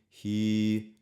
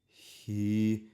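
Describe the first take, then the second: No difference in how they are said.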